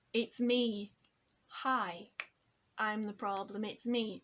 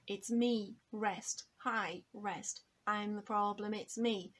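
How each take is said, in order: First: Said in the usual way. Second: "It's me, rest, hi, rest" with clear rests marked; spoken with rests. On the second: Shown as a demonstration. Teacher marks the rhythm of "hi, rest" with spoken rests. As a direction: speak the hook, saying the word rest in the gaps. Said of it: "changed the rhythmical structure".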